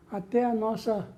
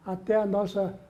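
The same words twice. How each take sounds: The two takes are said the same way.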